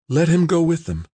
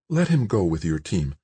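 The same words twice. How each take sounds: First: High, pressing plea; urging. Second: Gentle request. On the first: Tamara to Nobo on George's behalf, urging. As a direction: press him to give in. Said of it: "Tamara urged". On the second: Tamara stepping between the men, gentle request. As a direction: ask it gently, without pushing. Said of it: "she said gently to Nobo". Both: A narrator's reading.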